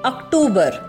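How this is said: It is said with Hindi pronunciation. "These are the changed versions of the pronunciation"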